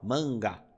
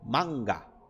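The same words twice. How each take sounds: First: The first vowel is nasalized. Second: The first vowel stays oral. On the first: The speaker calls it wrong. "nós tendemos a anasalar ele e falar an" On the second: The speaker calls it right. "você precisa trabalhar para o A não deixar de ter o som de A"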